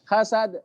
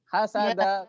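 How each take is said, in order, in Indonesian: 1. Berakhir dengan henti singkat tanpa napas. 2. Berakhir dengan vokal dan tersambung ke kata berikutnya. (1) "Ini wakaf tapi rasa wasol" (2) "kalau di wasol ya itu di fathah"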